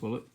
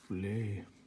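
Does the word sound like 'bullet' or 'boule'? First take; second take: bullet; boule. First: The word is said like 'bullet'. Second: The word is said like 'boule'. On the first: The speaker calls it wrong. "It's not bullet" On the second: The speaker calls it right. "it's boule, isn't it?"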